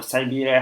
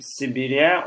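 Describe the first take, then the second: First: "Siberia" opening with "sigh"; long-i Siberia. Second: "Siberia" opening with a short "sih". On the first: Streamer trying the other pronunciation, "Siberia" with long "sigh". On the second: Streamer unsure how to pronounce hometown region, "Siberia" with "sih". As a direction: say "Siberia" as sih-BEER-ee-a, rising at the end. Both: Shown as a demonstration. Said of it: "how do I pronounce it?".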